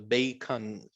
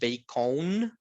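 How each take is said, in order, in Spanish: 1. La segunda vocal es un schwa débil. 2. La segunda vocal es una 'o' plena. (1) "sino bacon ... La O se convierte en ese sonido ... Como schwa" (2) "Vean que la O no es O, ¿verdad? No es bacon"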